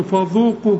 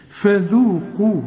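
First: فذوقوا with thick fa and a ظ-like dhal; wrong heavy version. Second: Slow فذوقوا with thin fa and dhal; very light. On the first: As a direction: imitate the mistake, dark فذوقوا. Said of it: "مش تقول لي فذوقوا". (فذوقوا بتفخيم غلط) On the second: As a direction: make فذو in فذوقوا very light. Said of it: "رقق قوي". (فذوقوا بترقيق الفاء والذال) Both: Shown as a demonstration.

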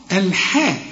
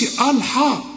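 First: الحاء with thin, front "el-heh" vowels; light haa. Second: الحاء with a dark, thick "aw"-like vowel; wrong heavy haa. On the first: Teacher correcting the mistake, light الحاء. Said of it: "أقول لك إزاي الحاء؟". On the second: Teacher showing what not to say, heavy الحاء. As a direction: say الحاء heavily, as the mistake. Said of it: "ما تقولش". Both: Shown as a demonstration.

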